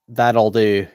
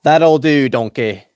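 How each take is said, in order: First: Said in the usual way. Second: Loud gruff ogre voice; loud Shrek impression to a donkey. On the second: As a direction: bark it out like a swamp ogre. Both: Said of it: "Can I do Shrek?".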